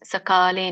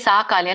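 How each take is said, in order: First: The first vowel is kept short. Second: The first vowel is drawn out long. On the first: The speaker calls it right. "ಸಕಾಲೆ ಸಕಾಲೆ Neha" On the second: The speaker calls it wrong. "ಸಾಕಾಲೆ ಅಲ್ಲ"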